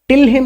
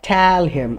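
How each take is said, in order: First: The first word has a short 'i' vowel. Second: The first word has an open 'e' vowel. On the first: The speaker calls it wrong. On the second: The speaker calls it right.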